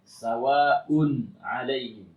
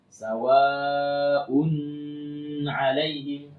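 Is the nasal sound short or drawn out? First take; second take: short; drawn out. First: The nasal n sound is kept short. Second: The nasal n sound is drawn out long. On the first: The speaker calls it right. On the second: The speaker calls it wrong.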